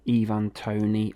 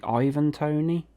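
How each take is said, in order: First: Ivan Toney, first name starting with a long "ee"; "Ivan" with an ee sound at the start; Ivan said as EE-van. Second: Ivan Toney, first name starting like "eye", pitched up as a question; "Ivan" with a long i at the start, questioning; Ivan said as EYE-van. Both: Shown as a demonstration. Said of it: "Is it Ivan or Ivan?".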